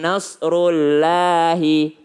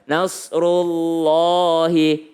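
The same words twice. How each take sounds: First: The Allah part is said thin and light. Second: The Allah part is said thick and full. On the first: The speaker calls it wrong. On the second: The speaker calls it right. "Allahnya tebal"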